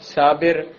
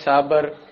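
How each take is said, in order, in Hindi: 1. दूसरे अक्षर में 'i' स्वर है। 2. दूसरे अक्षर में 'a' स्वर है। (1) "लफ्ज़ है साबिर" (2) "लोग कहते हैं साबर"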